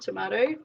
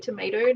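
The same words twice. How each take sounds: First: It is said with an Australian vowel. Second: It is said with a North American vowel. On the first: This is the speaker's original home way. The speaker calls it wrong. "not tomato" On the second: This is the local way where the speaker now lives. The speaker calls it right. "it's taken me a while to learn and remember to say tomato"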